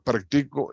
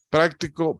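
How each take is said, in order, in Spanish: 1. El acento está en la sílaba del medio. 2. El acento está en la primera sílaba. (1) "En practico esta es la sílaba tónica" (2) "en práctico la sílaba tónica es la primera"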